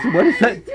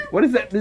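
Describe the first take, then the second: First: Said in the usual way. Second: Breaking into giggles mid-question; real giggly repeat; laughing. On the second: Real, not acted. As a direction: ask it while cracking up.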